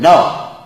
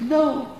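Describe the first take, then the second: First: It is said in a harsh, blunt tone. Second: It is said in a gentle, soft tone.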